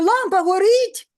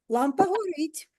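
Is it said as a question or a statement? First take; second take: question; statement. First: It is said with a questioning intonation. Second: It is said with a plain statement intonation. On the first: It asks whether the lamp is on. "Це буде знак питання в кінці речення, тому що я спитала" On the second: It simply tells that the lamp is on. "Це звичайна розповідь. І буде крапка"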